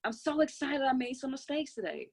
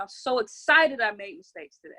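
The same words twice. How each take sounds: First: Excited, higher. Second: Excited, louder. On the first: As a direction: pitch it up with real joy. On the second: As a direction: push it out loud and glad. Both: Shown as a demonstration. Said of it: "God, I'm so happy and grateful".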